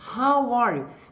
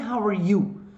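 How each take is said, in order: First: The word 'how' is stressed. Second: The word 'how' is not stressed. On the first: The speaker calls it right. "no caso do how, você vai dar ênfase" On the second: The speaker calls it wrong. "não é how are you?"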